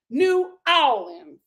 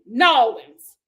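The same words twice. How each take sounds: First: "New Orleans" slowly split as new AW-lin; attempted local pronunciation. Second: "New Orleans" run together as NAH-linz, loud; attempted local pronunciation. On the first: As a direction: draw out "New Orleans", separate NEW, then AW-lin. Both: Shown as a demonstration. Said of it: "I'm still saying it wrong".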